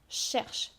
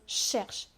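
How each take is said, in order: Both takes have the same delivery.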